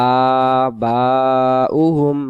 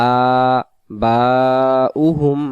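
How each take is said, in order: Both takes have the same delivery.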